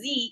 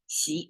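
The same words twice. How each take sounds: First: The name is said with an English pronunciation. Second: The name is said with a Chinese pronunciation. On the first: This is how the name is said in the West. "Somebody pronounce his name as President Xi" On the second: This is how the name is said in China. "but it's Xi is the Chinese way"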